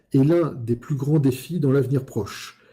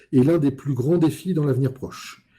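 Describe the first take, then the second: Both takes have the same delivery.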